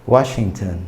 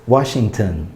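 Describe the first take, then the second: Both takes have the same delivery.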